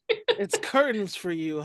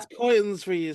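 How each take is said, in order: First: Curtains is said with a plain 'er' vowel. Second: Curtains is said with an 'oy' vowel, like coitons.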